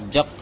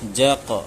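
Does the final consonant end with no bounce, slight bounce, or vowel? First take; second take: no bounce; slight bounce. First: The final consonant ends with no bounce at all. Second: The final consonant ends with a slight bounce. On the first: The speaker calls it wrong. "ये कलकला ही नहीं हुआ" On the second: The speaker calls it right. "हल्का सा दोनों का बीच में रखना है"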